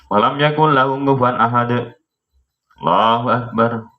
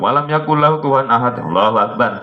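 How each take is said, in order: First: There is a short pause before Allahu Akbar. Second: Allahu Akbar follows immediately without a pause.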